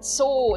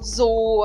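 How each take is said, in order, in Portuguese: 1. A palavra começa com som de ts. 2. A palavra começa com som de z. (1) "Então o Z tem o som de T S" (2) "eu não falo zoo aqui"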